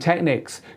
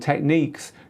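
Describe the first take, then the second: First: The word ends with a short 'nicks' sound. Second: The word ends with a long 'neeks' sound. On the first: This is how people in Europe say it. The speaker calls it wrong. "we in Europe call them Technics" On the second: This is how people in the States say it. The speaker calls it right. "You in the States call them Techniques. You are right. That is the correct way"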